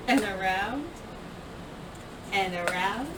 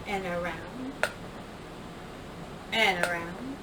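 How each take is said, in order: Both takes have the same delivery.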